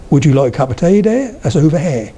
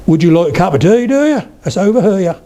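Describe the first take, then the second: First: Broad Norfolk with open, unrounded vowels; Norfolk accent. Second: Suffolk lilt, leaping high on "do ya"; broad Suffolk, pitched up at the end of the question; Suffolk accent. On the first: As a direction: say "here" as one open "hair", Norfolk style. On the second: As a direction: stretch "here" into two syllables, Suffolk style. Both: Shown as a demonstration.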